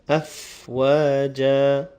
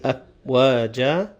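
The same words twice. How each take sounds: First: The f sound has a little breath flowing. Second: The f sound is short with no breath. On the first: The speaker calls it right. "the fa will have a little bit of breath and sound flowing" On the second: The speaker calls it wrong. "you won't say afwaja"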